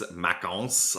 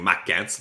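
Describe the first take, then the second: First: The last syllable sounds like 'ons'. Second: The last syllable sounds like 'ens'. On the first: The speaker calls it right. "but it's Macons, like you were saying" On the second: The speaker calls it wrong. "I've been mispronouncing his name for a long time. I was always saying"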